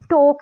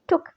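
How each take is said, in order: First: The vowel is a long, full o sound. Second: The vowel is a short, u-like sound. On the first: The speaker calls it wrong. "टोक नहीं" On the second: The speaker calls it right. "ओ के बजाय में टुक"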